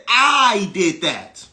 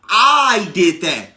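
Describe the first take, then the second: No difference in how they are said.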